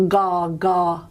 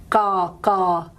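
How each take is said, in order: The two takes are said the same way.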